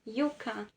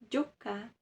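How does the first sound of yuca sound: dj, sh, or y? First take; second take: y; dj. First: The first sound is a y sound. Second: The first sound is a dj sound. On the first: "Na Espanha" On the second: "essa terceira possibilidade de ler também seria com som de D J"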